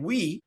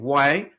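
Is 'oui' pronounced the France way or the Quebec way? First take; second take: France; Quebec. First: The word sounds like 'we', the France pronunciation. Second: The word sounds like 'why', the Quebec pronunciation. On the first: "instead of saying we" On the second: "you're saying why"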